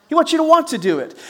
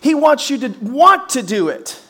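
First: Second want pushed higher and faster; stress on want. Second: Said in the usual way. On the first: Shown as a demonstration. Preacher repeating the line to the church, stressing the second want.

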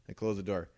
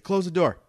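First: Said in the usual way. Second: Higher, louder retold command; imitated order. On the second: Son imitates dad summoning him into the office, raised-voice order. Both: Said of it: "He's like".

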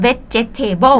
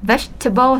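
First: "vegetable" in four full syllables, vet-jet-tay-bon; "vegetable" as Thai learners say it, vet-je-TAY-bon; Thai-style pronunciation. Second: "vegetable" in three syllables, VEJ-tuh-bon; "vegetable" as veg plus table, middle E dropped; silent second E. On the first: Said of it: "คนไทยจะชอบพูดว่า". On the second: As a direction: say "vegetable" with no vowel after the VEJ. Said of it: "veg แล้วก็ table เลยค่ะ". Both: Shown as a demonstration.

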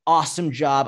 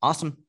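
First: Hyped-up Awesome job; excited, over the top. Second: Flat unexcited Awesome; monotone, no emotion. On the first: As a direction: shout Awesome with pride. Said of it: "I lose my shit". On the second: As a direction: say Awesome with zero enthusiasm. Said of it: "there's no emotion to it". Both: Shown as a demonstration.

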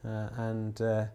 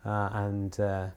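No difference in how they are said.

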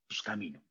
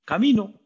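First: Hesitant quiet. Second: Louder, higher and resolute; the believer deciding to walk into the sea with resolve; bold declaration. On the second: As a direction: declare it with full confidence. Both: Shown as a demonstration. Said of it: "¿Está bien?".

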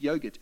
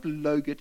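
First: Said in the usual way. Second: "logurt" with L instead of Y; wrong-word demo. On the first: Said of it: "it's yogurt". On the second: Shown as a demonstration. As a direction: show the slip, "logurt" starting on L. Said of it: "it's not logurt".

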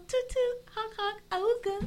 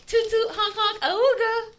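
First: High silly toot-toot honking voice; silly clown. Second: A touch of a high silly honk; lightly voiced cartoon horn call; silly clown. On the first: Pretend. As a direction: honk it out like a cartoon clown. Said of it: "what the hell is that? That's like Moana". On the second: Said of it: "and she goes".

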